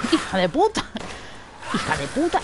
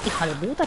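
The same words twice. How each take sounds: First: Real jolted swearing; startled angry curse. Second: Said in the usual way. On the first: Real, not acted. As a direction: spit it out in fright. Cursing right after the scare.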